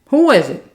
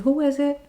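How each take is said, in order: First: It is said loudly and forcefully. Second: It is said at a normal, relaxed volume. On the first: Someone is banging hard at the door. "I'm gonna say it louder than what I'm saying" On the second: Someone is knocking gently at the door. "I might just say my regular, you knock like this"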